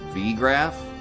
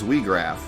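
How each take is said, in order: First: The name begins with a V sound. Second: The name begins with a W sound. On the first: The speaker calls it right. "I didn't think about the V sound" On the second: The speaker calls it wrong. "That's why I knew it wasn't Weegraph"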